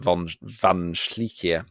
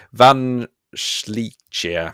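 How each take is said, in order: First: Slow, light German accent on the name; half-hearted German accent, drawn out. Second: Names read slowly in a mock German accent. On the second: Teacher reading scrambled names in a German accent. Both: Shown as a demonstration. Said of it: "I always do it in a German accent".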